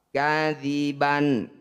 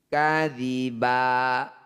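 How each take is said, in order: First: The word ends with an n sound. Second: The word ends with an open vowel. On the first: The reading continues without stopping. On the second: The reading stops on this word.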